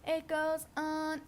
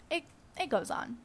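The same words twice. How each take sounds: First: Soft, slow, stretched-out words; drawn-out repeat. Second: Said in the usual way. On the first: Pretend. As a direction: stretch each word out softly on a held note. Repeats phrase slowly, held pitch.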